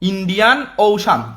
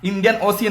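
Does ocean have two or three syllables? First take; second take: two; three. First: Ocean is said in two syllables with a sh sound. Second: Ocean is said in three syllables with an s sound. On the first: The speaker calls it right. "এটা Indian ওশান, উচ্চারণগুলো ঠিক করো" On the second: The speaker calls it wrong. "তোমরা অনেকে বলো Indian ওসিয়ান ... Indian ওসিয়ান না"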